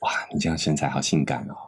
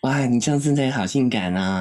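First: It is said in a low, seductive voice. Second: It is said in a plain, unseductive voice.

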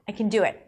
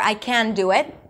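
First: Can is reduced to a weak kun. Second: Can is said fully with a clear vowel. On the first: The speaker calls it right. "The word can is usually reduced to kun" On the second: The speaker calls it wrong. "So I don't say... I can do it. It's too long"

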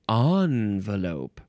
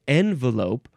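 First: The first syllable sounds like 'on'. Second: The first syllable sounds like 'en'. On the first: "So the N and on pronunciations" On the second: "So the N and on pronunciations"

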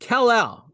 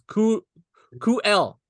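First: The name is said in its standard form. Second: The name has an altered first syllable. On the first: This is the character's actual name. The speaker calls it right. "So that's how it's pronounced" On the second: Someone else mispronounced it. The speaker calls it wrong. "He goes Ku-El. The way you pronounce it, I'm like, what the fuck?"

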